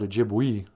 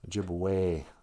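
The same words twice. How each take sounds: First: The final vowel does not sound like 'ay'. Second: The final vowel sounds like 'ay'. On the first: The speaker calls it wrong. "we don't call it Ojibwe" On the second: The speaker calls it right. "So the E's sound like A's"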